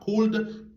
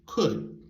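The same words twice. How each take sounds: First: The L sound is pronounced in the word. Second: The L sound is silent in the word. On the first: The speaker calls it wrong. "C'est pas could" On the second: The speaker calls it right. "mais c'est could. Elle l'a muette"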